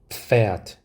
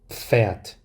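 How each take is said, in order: No difference in how they are said.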